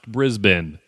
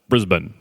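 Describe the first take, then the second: First: The vowels in the name are fully pronounced. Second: The vowels in the name are nearly dropped. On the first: The speaker calls it wrong. "Still wrong" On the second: The speaker calls it right. "Say it like there are no vowels in it"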